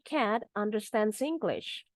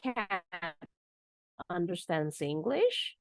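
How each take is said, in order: First: The pitch falls at the end. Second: The pitch rises at the end. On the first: It is a plain statement. "kalimat pernyataan, statement, titik" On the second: The listener is surprised and doubts it. "kita rubah dengan intonasinya naik jadi kalimat tanya"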